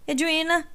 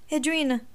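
First: Second call, higher and more urgent; calling louder. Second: First call, a little restrained; worried call toward Edwina. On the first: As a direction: call her name again, more anxious. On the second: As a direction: call her name across the wreck. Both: A narrator's reading. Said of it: "chamou ela".

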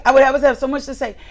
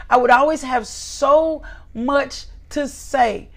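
First: "I would always have so much to say" rattled off fast; fast rushed repeat. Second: Said in the usual way. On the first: Shown as a demonstration. Preacher mocking a nonstop talker, rattling it off fast. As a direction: rush it out like a chatterbox.

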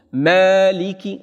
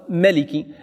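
First: "Maliki" with a long, held "Maa"; lengthened first vowel. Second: "Maliki" with a quick, short "Ma"; short first vowel. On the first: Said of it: "met een verlenging op de alif". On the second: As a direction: say "Maliki" without lengthening the first "a". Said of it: "in plaats van Maliki". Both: Shown as a demonstration.

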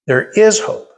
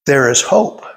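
First: There is hope, with "is" lifted high and rising; preacher's higher, rising "is" in There is hope; emphatic repeat. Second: Said in the usual way. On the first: Acted. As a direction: lift "is" high on the repeat, like a proclamation.

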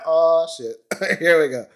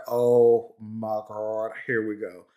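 First: High, loud 'oh shit, here we go' with a laugh; mock dread, laughing. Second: Slow, dropping 'oh my God, here we go'; weary dread. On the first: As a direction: laugh it off as the trouble starts. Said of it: "We're like". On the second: Retold or imitated. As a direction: sigh it out, resigned. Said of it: "It's like".

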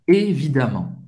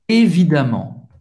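Both takes have the same delivery.

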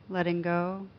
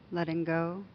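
The two takes are said the same way.

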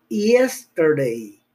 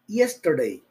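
First: Yesterday stretched slowly, opening with ye as in hielo, hierba. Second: Said in the usual way. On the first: Shown as a demonstration. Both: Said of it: "Vamos a pronunciar como si fuera hielo".

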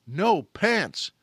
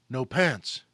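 First: Louder, slow, hammed-up alarm; mock alarm. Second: Low, stunned and hollow; ashen. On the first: Panicked retelling of missing pants. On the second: Retold or imitated. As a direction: say it dazed with shock. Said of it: "with an ashen expression".

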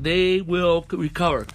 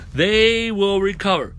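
First: Said in the usual way. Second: THEY drawn out and emphatic; stress on THEY. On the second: Real, not acted. Preacher repeats the healing promise, THEY stretched emphatically. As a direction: lean slowly on THEY, stretching it out.

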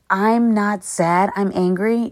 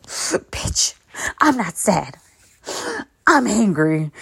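First: Said in the usual way. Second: Imitating someone crying, gasping between phrases; mock crying. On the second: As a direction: play tearful denial with sobbing breaths. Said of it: "people would cry in my presence. They'd be like".

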